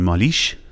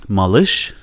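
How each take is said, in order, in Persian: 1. واکهٔ بعد از L یک 'ee' معمولی است. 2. واکهٔ بعد از L غلیظ و عقب است. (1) "اگه بگین مالیش، معنی نمیده" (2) "اگه ای غلیظ باشه میشه ای ای. مثلا مالش"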